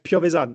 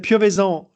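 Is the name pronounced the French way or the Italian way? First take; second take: Italian; French. First: The name is pronounced with Italian sounds. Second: The name is pronounced with French sounds. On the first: "in Italian it's like Piovesan" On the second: "we can say Piovesan in French"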